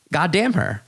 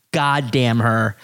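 First: Said in the usual way. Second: Mock mad. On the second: Real, not acted. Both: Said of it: "I'm so mad at how beautiful".

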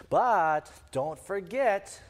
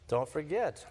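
First: Slowly drawn-out warning, said very slowly. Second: Said in the usual way. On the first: Retold or imitated. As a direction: stretch each word like a patronising reminder. Judaizers patronising the Galatian convert.

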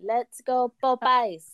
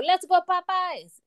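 First: Put-on the cheer again in a lighter French accent. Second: A French crowd's cheer, stretched out; French accent. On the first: She repeats the staff's cheer in a light French accent. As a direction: echo the French cheer, less stretched. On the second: Retold or imitated. Imitating the French staff cheering at the ribbon cutting, French accent. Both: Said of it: "I like the little French accent in there".

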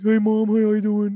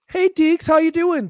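First: Slow, higher put-on pet voice; talking dog voice. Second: High-pitched greeting to a dog; imitated pet greeting. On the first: Dog answering its mom, slow put-on pet voice. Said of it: "Do you ever respond as Deeks?". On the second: Wife walks in and greets the dog, imitated high greeting. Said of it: "Anna was to walk in and, like, go like".

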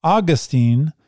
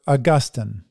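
First: Put-on Augustine stressed on the first syllable, AW-gus-teen. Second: Augustine stressed on the middle syllable, au-GUS-tin. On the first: Reading an article title to the congregation, Augustine said AW-gus-teen. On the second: Preacher contrasting the two names for the congregation, Augustine said au-GUS-tin. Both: Shown as a demonstration. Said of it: "Whether Augustine's Name Should Be Pronounced".

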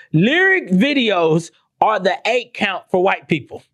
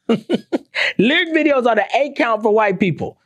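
First: Said in the usual way. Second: "Lyric videos" repeated higher and slower, with a laugh; stressed repeat. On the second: Shown as a demonstration.

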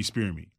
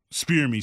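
First: Said in the usual way. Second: "spear me" held up at usual pitch and firm; stressed SPEAR me. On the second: Retold or imitated. Wrestler asking opponent to go easy, "spear me" stressed. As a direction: put the weight on "spear me". Contrasts real spearing with faking.

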